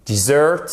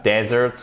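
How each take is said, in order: First: Dessert stressed on the final syllable, di-ZERT; short unstressed I, then a strong ZERT in Dessert; stress on second syllable. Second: Desert stressed on DE, with an open E; stress on first syllable. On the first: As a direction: hit the end of Dessert. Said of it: "accentuation sur la seconde syllabe". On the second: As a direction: say desert as DEH-zert. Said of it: "avec l'accentuation sur la première syllabe". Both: Shown as a demonstration.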